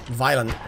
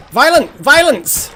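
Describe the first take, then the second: First: Said in the usual way. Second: High, loud outburst; excited shout. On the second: Real, not acted. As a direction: yell it as the frogs attack. Frogs attacking in game.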